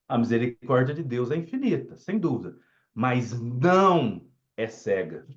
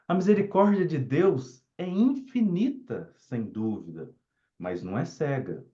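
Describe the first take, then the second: First: Heavy weight falls on "mas não é cega". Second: It is read in a gentle, affectionate way.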